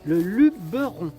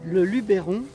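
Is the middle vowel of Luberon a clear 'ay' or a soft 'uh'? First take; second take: uh; ay. First: The middle vowel is a soft 'uh' sound. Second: The middle vowel is a clear 'ay' sound. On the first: The speaker calls it right. "mais le luberon" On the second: The speaker calls it wrong. "on ne disait pas le luberon"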